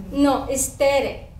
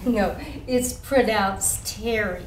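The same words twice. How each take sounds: First: Tere said with a tapped Spanish r, TEH-deh; correct pronunciation. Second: Terry with an English r, TEH-ree; teacher's wrong pronunciation. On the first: Shown as a demonstration. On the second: Retold or imitated. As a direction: mimic the teacher saying Terry in plain English.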